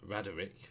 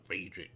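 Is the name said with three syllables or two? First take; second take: three; two. First: The name is said with three syllables. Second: The name is said with two syllables. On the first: This is how the game says it. "there's an extra E there somewhere" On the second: This is how the speaker would say it. "I'd pronounce that Radrick personally"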